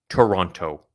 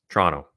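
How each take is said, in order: First: It is said the way outsiders say it. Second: It is said the way local natives say it. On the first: The speaker calls it wrong. "not Toronto" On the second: The speaker calls it right. "that's how you pronounce it"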